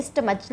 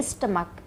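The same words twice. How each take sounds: First: स्टमच, ending in a ch sound like chair; wrong ch reading. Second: स्टमक, ending in a hard k sound; correct k ending. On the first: Teacher shows the class the wrong reading, स्टमच with ch. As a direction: say स्टमच with a ch at the end, as a mistaken reading. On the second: Teacher gives students the right reading, स्टमक with k. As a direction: say स्टमक with a k at the end, not ch. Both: Shown as a demonstration. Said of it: "इसका उच्चारण होता है स्टमक".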